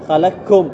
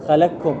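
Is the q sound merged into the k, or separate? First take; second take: merged; merged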